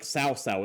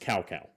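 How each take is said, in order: First: The name is said closer to Chinese. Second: The name is said the Westernized way. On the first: The speaker calls it right. "it's not like Sao Sao" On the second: The speaker calls it wrong. "despite that not being how you pronounce that"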